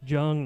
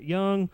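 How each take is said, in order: First: The name begins with a J sound. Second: The name begins with a Y sound. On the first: The speaker calls it right. "It's Jung" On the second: The speaker calls it wrong. "not Young"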